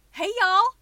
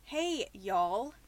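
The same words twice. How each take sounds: First: Big, high, loud country twang; hammed-up Southern country holler; exaggerated country greeting. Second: Toned-down Spokane, Washington greeting; understated Pacific Northwest accent; Washingtonian accent. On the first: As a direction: lay the country accent on thick. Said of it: "making fun of sounding country". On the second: Acted. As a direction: say it like a Washingtonian, no country twang. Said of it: "let me do it as a Spokenite, as a Washingtonian".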